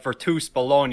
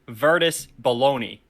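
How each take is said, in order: First: Bologna is said with an Italian pronunciation. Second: Bologna is said like the American deli meat. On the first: "I feel like it's pronounced something like" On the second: "spelled to the American ... like as in like the deli meat"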